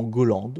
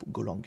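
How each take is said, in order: First: Golang said as "Goland", ending in D; "Golang" misspoken with a D ending; slip on Golang. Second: Golang said with a G at the end; "Golang" corrected to a final G sound. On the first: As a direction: say Golang with a final D instead of G. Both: Real, not acted. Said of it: "Golang avec un G".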